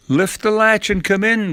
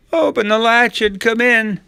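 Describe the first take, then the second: First: High-pitched grandma voice; unsuspecting grandma. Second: Very high, loud fake old-lady voice; imitating quavering grandma. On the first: A narrator's reading. Grandma answers her supposed granddaughter, unsuspecting. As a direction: invite the visitor in, suspecting nothing. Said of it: "Grandma said, unaware of anything amiss". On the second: Wolf in bed imitates Grandma, quavering little voice. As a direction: put on a little grandma falsetto. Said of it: "Trying to imitate Grandma's quavering little voice".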